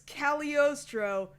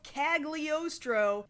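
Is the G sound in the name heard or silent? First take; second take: silent; heard. First: The G sound in the name is silent. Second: The G sound in the name is pronounced. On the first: The speaker calls it right. "The G is silent" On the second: The speaker calls it wrong. "It's not Castle of Cagliostro"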